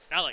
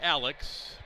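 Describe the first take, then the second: First: The name ends with a k sound. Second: The name ends with a ks sound. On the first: This is how the name is actually said. The speaker calls it right. "but it's pronounced like Alec" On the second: This is how the spelling looks. The speaker calls it wrong. "It looks like Alex"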